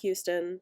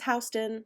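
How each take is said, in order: First: Houston is said with a different, non-local pronunciation. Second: Houston is said with the local New York pronunciation. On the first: This is not how New Yorkers say the street name. The speaker calls it wrong. "not Houston" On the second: This is how New Yorkers say the street name. The speaker calls it right. "That's how we pronounce it"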